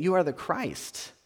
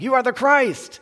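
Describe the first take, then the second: First: Calm steady statement; calmly. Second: Sudden high loud outburst; blurting it out. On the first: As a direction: say it calmly, without the rush. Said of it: "maybe he said it calmly". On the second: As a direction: blurt it out on impulse, higher and louder. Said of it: "blurting it out". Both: Retold or imitated.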